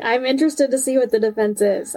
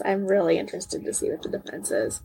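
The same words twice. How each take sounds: First: Said in the usual way. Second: Softer, lower repeat with REALLY added; low and soft, trailing off; quiet afterthought. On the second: Real, not acted. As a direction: drop the voice, as if musing.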